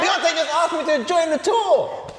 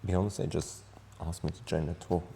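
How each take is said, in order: First: It is said in an excited tone. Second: It is said in a sad, trembling tone.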